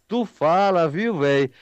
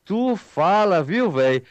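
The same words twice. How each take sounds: The two takes are said the same way.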